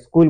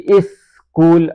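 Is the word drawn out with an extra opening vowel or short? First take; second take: short; drawn out. First: It is said short without a stretched opening vowel. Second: It is stretched with a separate vowel before 's'. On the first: The speaker calls it right. "स्कूल बोलते हैं" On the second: The speaker calls it wrong. "उतना खींच कर नहीं बोलते हैं कि इस स्कूल, ऐसे नहीं बोलते"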